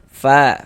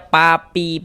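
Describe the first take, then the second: First: Each syllable starts with a breathy f. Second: Each syllable starts with a p. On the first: The speaker calls it right. "itu harus ada nafas yang mengalir" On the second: The speaker calls it wrong. "Jangan dibaca papi, pu, jangan"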